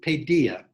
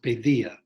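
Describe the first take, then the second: First: The middle consonant is a plain D sound. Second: The middle consonant is a soft TH sound.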